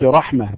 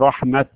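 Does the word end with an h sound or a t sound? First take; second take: h sound; t sound. First: The word ends with an h sound. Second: The word ends with a t sound. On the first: "ويوقف عليها بالهاء" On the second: "إذا وقفنا على التاء"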